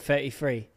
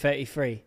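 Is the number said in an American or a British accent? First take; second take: British; British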